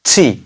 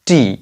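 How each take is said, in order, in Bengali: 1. t-এর মধ্যে জোরালো বাতাসের ঝলক আছে। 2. t-এর মধ্যে বাতাসের কোনো ঝলক নেই। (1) "টি টি টি ঠ এর মতো হবে" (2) "আমরা উচ্চারণ করি টি টি কিন্তু আমাদের রং প্রোনাউন্সিয়েশন করা যাবে না"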